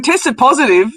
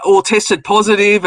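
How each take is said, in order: First: Higher, incredulous echo question; mock disbelief. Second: Slower, imitated grave report; retold real seriousness. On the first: Host echoing woman's hospital news, scoffing disbelief. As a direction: throw it back as if absurd. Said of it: "I just started laughing". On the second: Woman reporting hospital test results, mock serious. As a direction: spell out the news as if serious. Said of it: "like, real serious".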